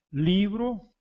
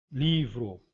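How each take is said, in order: First: Livro said the Spanish way as libro, with a B sound, high and stressed. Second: Livro said the Portuguese way with a clear V and a falling close. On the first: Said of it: "é grafado com a letra B". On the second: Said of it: "e nós com a letra V". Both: Shown as a demonstration.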